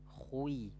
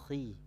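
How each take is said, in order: First: The syllable is said with full heavy thickness. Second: The syllable is said with reduced thickness. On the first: The speaker calls it wrong. "ketika kasroh dia tidak dibaca khui" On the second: The speaker calls it right. "tetapi khi"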